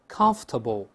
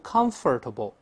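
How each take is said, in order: First: The middle 'or' syllable is dropped. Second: The middle 'or' syllable is fully pronounced. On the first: The speaker calls it right. "而是conf，conf，再来一遍" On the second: The speaker calls it wrong. "不要读comfortable，注意中间那个OR，这个发音是没有的"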